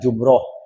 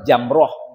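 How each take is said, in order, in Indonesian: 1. Vokal pertama adalah 'u' membulat. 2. Vokal pertama adalah 'a' terbuka. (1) "bukan jumroh" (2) "yang tepat sebenarnya kalimat itu melempar jamroh"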